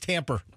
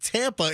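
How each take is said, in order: First: The word ends with an added R sound. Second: The word ends in a plain vowel. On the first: "it becomes Tamper" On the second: "instead of saying Tampa"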